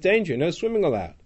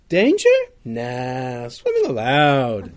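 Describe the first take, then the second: First: 'Danger' falls as a warning; 'no swimming allowed' follows. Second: 'Danger' rises as a question, then 'Nah' stands alone.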